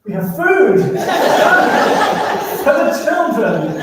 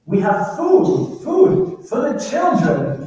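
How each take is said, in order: First: Much higher, louder words broken by a laugh; can't keep a straight face while repeating it; laughing retelling. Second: Slow, much higher, louder pleading captain in broken English; captain's broken English. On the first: Journalist on the radio to the navy, cracking up mid-line. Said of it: "I pick up the radio and I go". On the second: Fishing boat captain answering the navy by radio, slow high pleading. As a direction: draw it out high and loud like a desperate foreign captain. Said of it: "he goes". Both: Retold or imitated.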